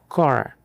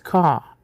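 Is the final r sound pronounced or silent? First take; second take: pronounced; silent. First: The final r is strongly pronounced, curled back. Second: The final r is dropped and not pronounced. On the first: "O americano mastiga o R com força, fazendo um som retroflexo" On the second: "o britânico de Londres parece que esqueceu a letra no caminho"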